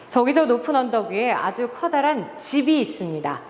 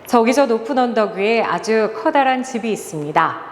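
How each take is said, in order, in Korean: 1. '집'이라는 단어에 추가로 강세를 줍니다. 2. 아무 단어도 강세를 주지 않고 평평하게 읽습니다. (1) "집이라는 단어에 한번 강조를 줘볼게요" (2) "단 한 번도 움직이지 않고 손을 이렇게 모으고 읽는다고"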